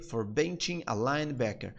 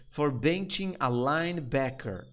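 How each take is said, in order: First: Said in the usual way. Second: Slow, careful phrase; slow demo. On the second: Shown as a demonstration. Teacher breaking down the line, slow. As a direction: give each word room. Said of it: "ele gritou comigo por quê?".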